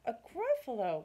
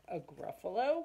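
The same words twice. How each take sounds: First: "Gruffalo" starts up and falls; confident answer. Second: Rising, questioning "Gruffalo"; puzzled question. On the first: Mouse answers the snake, confident and matter-of-fact. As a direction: state "A Gruffalo" with a falling end. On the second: Snake asks the mouse about an unknown creature, puzzled question. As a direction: ask "A Gruffalo?" with the pitch lifting at the end. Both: Acted.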